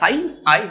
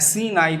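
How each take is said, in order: First: The first word is said like 'sign'. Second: The first word is said like 'sin'. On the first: The speaker calls it right. "এটা সাইন আই" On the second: The speaker calls it wrong. "এটা কখনোই এরকম উচ্চারণ করলে হবে না"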